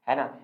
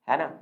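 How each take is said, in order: The two takes are said the same way.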